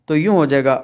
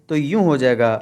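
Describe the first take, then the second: No difference in how they are said.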